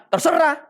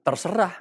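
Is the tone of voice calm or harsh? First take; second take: harsh; calm. First: It is said harshly, with a sharp voice. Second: It is said calmly and kindly. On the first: It sounds dismissive and can start a fight. The speaker calls it wrong. "Tapi kalau nada suaranya, ... Udah beda saudara" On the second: It means it really is up to the other person. The speaker calls it right. "bisa bilang kata-katanya baik"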